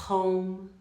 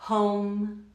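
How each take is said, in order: Both takes have the same delivery.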